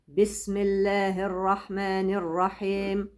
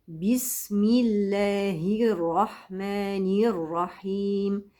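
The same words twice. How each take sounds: First: The i vowels are weak and not fully formed. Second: The i vowels are said fully and clearly. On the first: The speaker calls it wrong. "وهي بسملة ليست صحيحة بالمرة" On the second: The speaker calls it right. "كل الحروف المكسورة تكسر تماما"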